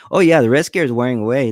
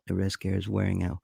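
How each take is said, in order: First: Said in the usual way. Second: Quiet murmur reading a comment off the screen; reading chat aloud. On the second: Real, not acted. Streamer quietly reads a viewer's comment aloud. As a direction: murmur the chat line to yourself.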